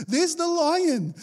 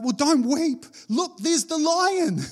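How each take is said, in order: First: High, slow, through a laugh; amused, high, slow repeat. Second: High, slow, eager pointing; playful, high, slow "look, there's the lion"; excited elder. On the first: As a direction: say it again, laughing. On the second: Elder's words acted out. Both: Acted.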